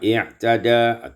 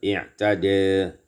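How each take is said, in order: First: The final vowel is a fully open a. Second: The final vowel is tilted toward e.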